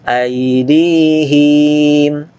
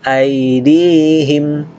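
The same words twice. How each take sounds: First: The hi syllable is drawn out long. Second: The hi syllable is said short. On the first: The speaker calls it wrong. "jangan dibaca aydihim. Nah, itu keliru" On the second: The speaker calls it right. "hi-nya jangan panjang, langsung"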